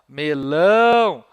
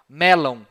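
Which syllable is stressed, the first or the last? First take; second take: last; first. First: The stress is on the last syllable. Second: The stress is on the first syllable. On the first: This is the modern Portuguese pronunciation. "A última sílaba é que é a tônica" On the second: This is how an ancient Roman would say it. "Para ele, nenhuma palavra tem a última sílaba acentuada"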